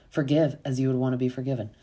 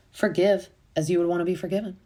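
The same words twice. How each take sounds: First: Said in the usual way. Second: Higher, quick recited saying; lightly put-on higher voice; mimicked preachy quote. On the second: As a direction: imitate someone reciting a motto, pitched up. Mimicking Taylor's quote in a retelling.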